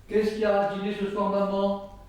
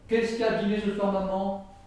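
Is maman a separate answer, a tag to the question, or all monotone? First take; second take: monotone; monotone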